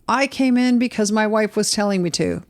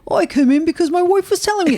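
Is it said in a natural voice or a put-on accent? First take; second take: natural voice; put-on accent. First: It is said in the speaker's natural voice. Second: It is said in an imitated local accent.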